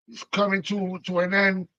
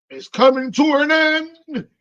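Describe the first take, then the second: First: Said in the usual way. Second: Dramatic. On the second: Real, not acted. Dramatic announcement of ending.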